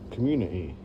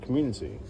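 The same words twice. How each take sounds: First: The T sound is dropped. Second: The T sound is clearly pronounced.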